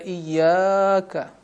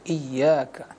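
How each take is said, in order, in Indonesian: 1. Vokal setelah bunyi y dibaca panjang. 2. Vokal setelah bunyi y dibaca pendek. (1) "Jangan pula dibaca iyaka. Salah, ini hanya satu harokat" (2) "ini hanya satu harokat"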